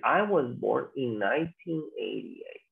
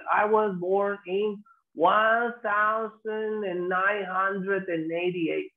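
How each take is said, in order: First: Lower, measured "nineteen eighty-eight" in two chunks; natural year in pairs. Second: Very slow, drawn-out, higher "one thousand and eighty-eight"; odd long-winded year. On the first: Teacher shows how we will say it, measured year in pairs. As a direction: model "nineteen eighty-eight" slowly and plainly. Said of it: "vamos a decir". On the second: Teacher mocks what people never say, laboriously drawn-out reading. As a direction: drag out every word to show how odd it sounds. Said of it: "No, se escucha hasta raro". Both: Shown as a demonstration.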